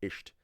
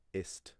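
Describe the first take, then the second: First: Ist mimicked as isht with a sh sound; his wrong isht. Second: Ist said with a plain s, as a correction. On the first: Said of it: "constantly listening to him saying". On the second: Shown as a demonstration. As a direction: ist pronounced gently with a clean s. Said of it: "it's actually ist".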